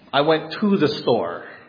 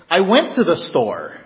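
First: The word to is stressed. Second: The word went is stressed. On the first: The speaker did not go inside. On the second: The trip has already happened.

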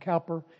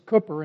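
First: The first vowel sounds like 'cow'. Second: The first vowel sounds like 'coo'. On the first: The speaker calls it wrong. "American pronunciation" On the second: The speaker calls it right. "It's Cooper in Britain"

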